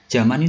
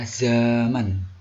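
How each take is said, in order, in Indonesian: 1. Kata itu diawali dengan bunyi j. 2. Kata itu diawali dengan bunyi z. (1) "Zaman itu ternyata tidak baku" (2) "penulisan yang betul adalah zaman. Ya, pakai Z"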